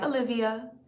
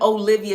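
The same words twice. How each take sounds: First: The name is said in a relaxed, casual way. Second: The name is said with an over-enunciated first O. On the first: "you could say it like casual" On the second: "really trying to put some stank on it, you could really over enunciate the O"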